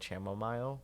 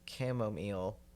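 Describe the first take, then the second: First: The word begins with an 'sh' sound. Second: The word begins with a 'k' sound. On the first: The speaker calls it wrong. "for the longest time I pronounced it" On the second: The speaker calls it right. "I know that's not how you say it. It's"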